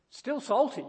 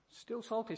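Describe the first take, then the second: First: "salty" pushed higher and louder; punched salty. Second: Said in the usual way. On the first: Shown as a demonstration. Preacher insisting the old salt is still salty, punched. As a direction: hit "still salty" hard.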